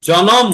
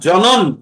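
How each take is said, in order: First: The word ends with an m sound. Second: The word ends with an n sound. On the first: The speaker calls it right. "লোম আছে তো ওখানে" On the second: The speaker calls it wrong. "না জনন"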